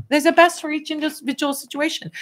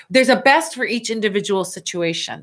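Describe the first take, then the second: First: "best" said much higher and stressed; corrected with emphasis. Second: Said in the usual way. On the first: Shown as a demonstration. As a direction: lift the word "best" high to correct yourself. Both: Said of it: "That's what I should say".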